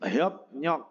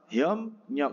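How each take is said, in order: First: The syllables join with a p then n sound. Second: The syllables join with an m then n sound. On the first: "Menjadi hiop nyok" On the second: "biep menjadi m"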